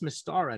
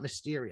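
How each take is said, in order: First: The name ends in 'ara'. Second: The name ends in 'eria'. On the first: The speaker calls it right. "I guess that's Mystara" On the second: The speaker calls it wrong. "I guess I've been pronouncing it wrong"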